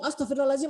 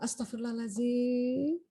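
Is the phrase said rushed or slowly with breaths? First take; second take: rushed; slow. First: Repeated quickly, run together without a breath. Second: Said slowly, one at a time, with breaths. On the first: There is no time to breathe in. The speaker calls it wrong. "Kalau kalau digabung ... nah itu nggak sempat tarik nafas itu" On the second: There is time to breathe in first. The speaker calls it right. "Satu-satu, ... Biar dia tarik nafas dulu"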